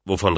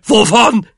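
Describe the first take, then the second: First: Said in the usual way. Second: High, loud echo of the question; exasperated shriek; outraged shout. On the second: A narrator's reading. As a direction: yell it back in disbelief. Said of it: "schrie Onkel Depp".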